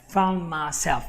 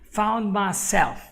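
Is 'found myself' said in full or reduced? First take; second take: reduced; reduced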